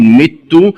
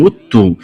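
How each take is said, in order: First: Said in the usual way. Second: مت said "muttu"; damma on meem. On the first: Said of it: "قرأها بضم". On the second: Shown as a demonstration. Teacher showing the variant, مت with opening u. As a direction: round the first vowel of مت to u. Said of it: "قرأها بضم الميم".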